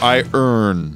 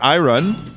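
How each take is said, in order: First: The r sound comes after the vowel. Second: The r sound comes before the last vowel. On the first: The speaker calls it wrong. "Doesn't earn sound like we don't know English?" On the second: The speaker calls it right. "What sounds smarter? I run. By the way, it's spelled I R O N"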